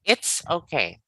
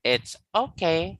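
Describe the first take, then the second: First: IT'S stressed, okay falling away; stress on first word. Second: OKAY lifted, rising at the end; stress on second word. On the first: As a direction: hit It's, let okay drop. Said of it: "it should be the first". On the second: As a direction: question the stress by raising okay. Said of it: "Is that how you do it?". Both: Shown as a demonstration.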